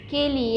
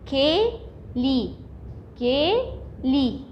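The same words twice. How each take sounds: First: Said in the usual way. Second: "كيلي" very slow, a gap between syllables; teacher breaking "كيلي" into long, separate syllables; split into syllables. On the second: Shown as a demonstration. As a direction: sound out "كيلي" in two drawn-out parts. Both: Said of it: "تعالوا نقسمها".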